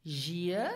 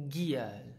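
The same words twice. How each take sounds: First: ZHEE-el, "Giel" offered as a question; first pronunciation option. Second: "Giel" with a hard g, falling; GHEE-el, "Giel" starting as in go; second pronunciation option. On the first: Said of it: "How would you pronounce this word?". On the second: Teacher quizzing learners on the word, hard-g "Giel". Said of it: "it is pronounced Giel". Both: Shown as a demonstration.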